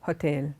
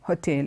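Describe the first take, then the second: First: The stress is on the second syllable. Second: The stress is on the second syllable.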